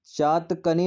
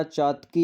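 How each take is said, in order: First: चातकनी with an extra 'nee' syllable after 'chaatak'; incorrect form. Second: चातकी ending straight in 'kee', no 'n'; correct form. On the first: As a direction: say चातकनी slowly, ending '-kanee'. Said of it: "नहीं होता". (चातकनी के अंत में 'कनी' बोलें) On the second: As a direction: say चातकी slowly as chaat-kee. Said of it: "होता है". (चातकी के अंत में सिर्फ़ 'की' बोलें) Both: Shown as a demonstration.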